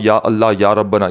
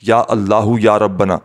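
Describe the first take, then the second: First: Allah is said without a final vowel. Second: Allah is said with a final u vowel. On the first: The speaker calls it wrong. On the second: The speaker calls it right.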